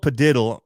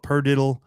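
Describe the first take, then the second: First: "Padiddle" with no r in the first syllable; "Padiddle" as puh-DID-dle; pronunciation of Padiddle. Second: "Perdiddle" with an r in the first syllable; "Perdiddle" as per-DID-dle; variant pronunciation. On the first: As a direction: say "Padiddle" starting with a plain "puh". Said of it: "It's called Padiddle". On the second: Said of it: "some people apparently call it". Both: Shown as a demonstration.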